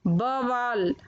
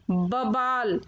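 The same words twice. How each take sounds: First: Said in the usual way. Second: बवाल said "babaal"; mispronounced बवाल. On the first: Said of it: "फिर उनका शुद्ध उच्चारण". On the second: Shown as a demonstration. Teacher showing children the error, बवाल said "babaal". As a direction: make the v of बवाल a b. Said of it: "अशुद्ध शब्द मैंने रखे हैं".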